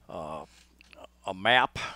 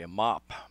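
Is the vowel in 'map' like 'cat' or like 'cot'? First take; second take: cat; cot. First: The vowel sounds like the one in 'cat'. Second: The vowel sounds like the one in 'cot'.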